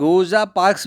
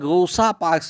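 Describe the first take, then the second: First: The middle consonant of Rosa sounds like z. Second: The middle consonant of Rosa sounds like s. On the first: "उनको हम रोजा parks भी कह सकते हैं" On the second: "उच्चारण में थोड़ा सा अंतर हो सकता है"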